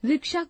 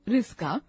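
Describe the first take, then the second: First: The middle cluster sounds like ksh. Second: The middle cluster sounds like sk. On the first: The speaker calls it right. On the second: The speaker calls it wrong.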